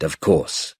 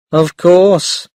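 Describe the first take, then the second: First: Said in the usual way. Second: "Of course" said lightly with a small smile. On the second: Acted. Mother answering grandmother, a small smile. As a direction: let a little smile into "Of course". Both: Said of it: "said Mum with a small smile".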